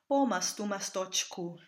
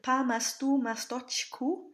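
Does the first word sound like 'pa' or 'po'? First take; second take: po; pa. First: The first word has a full 'o' vowel. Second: The first word has an open 'a' vowel. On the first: The speaker calls it right. "should actually be pronounced po, with a real Russian O sound" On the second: The speaker calls it wrong. "which we've said here is pa"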